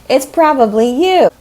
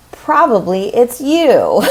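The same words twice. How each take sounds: First: Much higher and louder, pressing the point home; emphatic repeat. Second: Slow, louder and higher, a knowing jab; teasing comeback. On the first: Real, not acted. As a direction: push 'it's probably you' up and hard, half laughing. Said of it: "If you're coming to me saying that". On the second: Retold or imitated. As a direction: land it slowly as a cheeky punchline. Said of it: "And then I always say".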